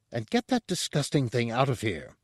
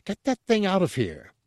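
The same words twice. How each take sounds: First: Restrained, disgusted demand. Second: High-pitched, indignant mock shout. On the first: Chef tells the guard to remove a corpse, demanding. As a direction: order it out without shouting. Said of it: "Porcellus demanded". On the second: Chef throws guard and corpse out, shouting. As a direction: order it out in a raised pitch. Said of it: "Porcellus shouted". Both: A narrator's reading.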